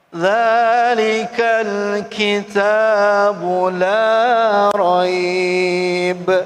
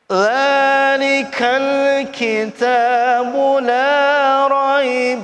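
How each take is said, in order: First: The reading stops after raib, vowel held long. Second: The reading continues past raib, vowel kept short. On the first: "Kalau wakof berhenti" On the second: "Tapi kalau nggak berhenti pendek"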